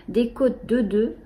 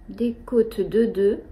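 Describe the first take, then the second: First: Said in the usual way. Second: Slow, voiceless whisper of the phrase. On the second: Shown as a demonstration. Knitter repeating the rib pattern to viewers, slow whisper. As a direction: mouth the words slowly, no voice.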